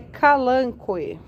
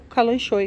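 First: The middle consonant is a 'k' sound. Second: The middle consonant is a 'sh' sound. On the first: This is said to be the correct pronunciation. "dizem aí que a pronúncia correta é" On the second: This is the speaker's usual way of saying it. "como eu costumo chamar mesmo"

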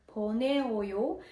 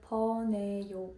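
First: An extra o vowel is kept after the stem. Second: The o vowel is dropped after the stem. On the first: The speaker calls it wrong. "звучить досить дивно" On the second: The speaker calls it right. "«о» просто зникає"

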